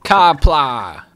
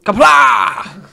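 First: Kapla read flat as written; Kapla said wrong. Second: Kapla shouted high, mock-grand; Kapla corrected. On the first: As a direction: Kapla with plain even stress. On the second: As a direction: Kapla belted out loud and high. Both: Shown as a demonstration. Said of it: "that's pronounced Kapla!".

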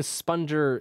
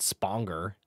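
First: Sponger with a soft g, like sponge; soft-g pronunciation. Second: Sponger with a hard g, like longer; hard-g mispronunciation. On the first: Cohost explaining a title's pronunciation, Sponger with soft g. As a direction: say Sponger as SPUN-jer. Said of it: "that's how it's pronounced". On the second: Cohost showing how not to say it, Sponger with hard g. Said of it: "It's not Sponger". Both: Shown as a demonstration.

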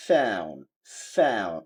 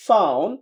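First: American "found" with AE-oo and dropped D; American accent. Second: British "found" with AH-oo and dropped D; British accent. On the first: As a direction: say "found" as falling FAE-oon. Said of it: "ওরা বলছে". (American উচ্চারণে) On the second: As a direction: say "found" as FAH-oon. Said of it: "ব্রিটিশরা বলতেছে". (British উচ্চারণে) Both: Shown as a demonstration.

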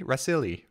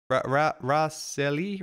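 First: Said in the usual way. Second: Halting "Raseli" with a questioning rise; unsure name attempt. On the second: Real, not acted. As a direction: stumble slowly into "Raseli" as a question. Trying out a subscriber's name.

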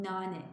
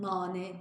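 First: "nane" with a thin, fronted a; correct thin vowel. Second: "nane" with a thick back a; wrong pronunciation. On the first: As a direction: lighten the first a of "nane" toward the front. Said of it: "Biraz ince". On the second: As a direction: keep the a of "nane" heavy, not fronted. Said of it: "nane değil". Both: Shown as a demonstration.

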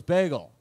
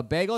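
First: BAGEL said back with a falling tune; flat repeat back. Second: BAGEL asked with a rising tune; questioning order. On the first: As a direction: repeat "Bagel" as a statement, dropping at the end. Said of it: "He goes". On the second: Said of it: "And I go, uh". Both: Retold or imitated.

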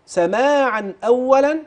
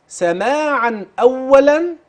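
Both takes have the same delivery.

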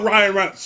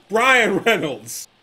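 First: Said in the usual way. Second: Brian Reynolds said slowly and deliberately, fixing the name; slow correction. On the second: Shown as a demonstration. Correcting himself on the player's name, slowly. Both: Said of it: "I said Ryan Reynolds".

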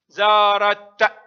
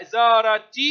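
First: Slow زارت, stopped hard on t: "zaarat"; pausal ta. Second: زارت as "zaarati", vowel after the t. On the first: Teacher showing pupils the stop, slow زارت ending in t. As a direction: end زارت on a vowelless t, drawn out. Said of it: "وتاء عند الوقف". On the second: Teacher showing pupils connected reading, زارت ending "-ti". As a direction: carry the t of زارت into "-ti". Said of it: "تنطق تاء في الحركة". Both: Shown as a demonstration.

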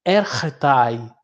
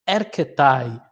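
First: Erretai with a rough R in place of the K, ER-re-tai; r pronunciation. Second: Erketai with a clear hard K, ER-ke-tai; k pronunciation. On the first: Teacher showing students the alternative R reading, erretai. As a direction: say erretai with a throaty R sound. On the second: Teacher showing students the K reading, erketai with hard K. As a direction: say erketai with the K sound, not an R. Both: Shown as a demonstration. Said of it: "alguns preferem ler como ri".

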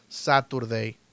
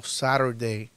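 First: Saturday with a crisp t, "sa-tur-dei"; clear-t variant. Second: Saturday with the t as a tap, "sa-ru-dei"; tapped-t variant. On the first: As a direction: sound the t in Saturday. (Saturday con la t marcada, "sáturdei") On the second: (Saturday con t suave, como "sárudei") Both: Shown as a demonstration. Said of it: "También puedes decir Saturday".

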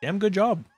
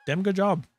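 The two takes are said the same way.

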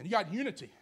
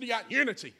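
First: Said in the usual way. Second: Repeated louder and higher, leaning on unity; preacher pressing the point louder; emphatic repeat. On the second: Real, not acted. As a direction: drive it home the second time. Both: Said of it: "I said you got unity".

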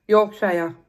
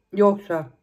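First: Yorkshire ending like the word "shire"; Yorkshire, last part drawn out as "shy-er"; full -shire ending. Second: Yorkshire ending in a weak "shuh"; Yorkshire with the last vowel swallowed to "shuh"; reduced -shire ending. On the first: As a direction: say Yorkshire with SHIRE rhyming with fire. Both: Shown as a demonstration. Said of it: "How do you say it".

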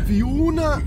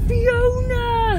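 First: High, weak attempt at the Fiona call; a clumsy copy of the Eurotrip yell; bad Fiona imitation. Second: High, drawn-out call of Fiona; Eurotrip Fiona call. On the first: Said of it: "That was crap". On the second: Retold or imitated. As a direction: yell Fiona like the Eurotrip scene. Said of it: "It's from Eurotrip".

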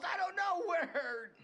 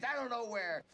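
First: Slow, half laughing, half sobbing; broken, hysterical pleading; laughing through pain. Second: Shouting in pain, pleading; desperate shout. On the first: Suspect breaking down in pain. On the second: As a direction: yell it out, begging to be believed. Suspect pleading under pain. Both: Acted.

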